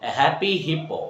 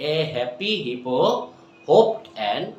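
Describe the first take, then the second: First: Said in the usual way. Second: Quick, light run-through; fast repeat. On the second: Shown as a demonstration. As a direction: speed it up on the repeat.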